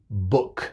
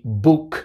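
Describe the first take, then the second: First: The vowel is a short, relaxed 'u' sound. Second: The vowel is a long 'oo' as in food. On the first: The speaker calls it right. "y book" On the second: The speaker calls it wrong. "ni book"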